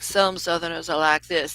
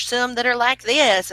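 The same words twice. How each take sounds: First: Lightly put-on Southern accent. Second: Higher, louder put-on Southern accent; Southern twang. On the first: Showing one way some Southerners talk, Southern accent. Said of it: "That's not what it's like". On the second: Showing how other Southerners talk, higher Southern twang. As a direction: exaggerate a high Southern twang. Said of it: "and it's not like that". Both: Shown as a demonstration.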